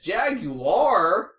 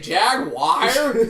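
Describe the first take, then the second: First: It is said in three syllables, jag-u-ar. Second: It is said in two syllables, jag-wire. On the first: The speaker calls it right. "it says Jaguar in the word" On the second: The speaker calls it wrong. "J A G W I R E"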